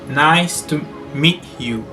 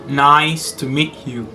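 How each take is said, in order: Both takes have the same delivery.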